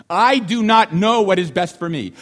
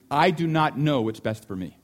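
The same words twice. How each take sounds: First: Louder, stressed "I do not know what is best for me"; emphatic repeat. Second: Said in the usual way. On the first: Shown as a demonstration. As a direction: repeat it with force, leaning on "not".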